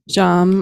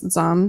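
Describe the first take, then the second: First: The syllable begins with a J sound. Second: The syllable begins with a Z sound. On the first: This is the Sanskrit pronunciation. "I guess the Sanskrit pronunciation" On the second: This is the Tibetan pronunciation. "then Tibetan is Zam"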